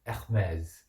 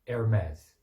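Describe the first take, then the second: First: It is said with a French accent. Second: It is said with an American English accent. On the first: "프랑스 사람들은 원어로" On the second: "대부분의 미국 사람들이 어떻게 하냐면"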